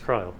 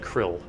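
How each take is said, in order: First: The name has a long vowel, rhyming with 'isle'. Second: The name has a short vowel, rhyming with 'ill'. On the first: "so I guess it's Krile" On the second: "I always said Krill"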